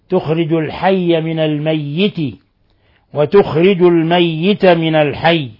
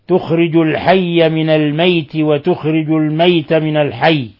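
First: The y sound in al-mayyit is doubled. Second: The y sound in al-mayt is single. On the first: "وأما حفص فيشددها" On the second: "يقرأه الميت بالتخفيف ... هكذا يقرأها شعبة"

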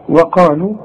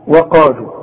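The two takes are said the same way.

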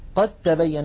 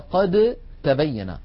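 First: The d merges into a doubled t. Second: The d is pronounced before the t.

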